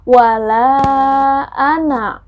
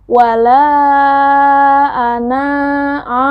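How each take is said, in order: First: The final vowel of 'ana' is short. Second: The final vowel of 'ana' is lengthened. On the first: The speaker calls it right. "tidak boleh dipanjangkan" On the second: The speaker calls it wrong. "bukan begitu"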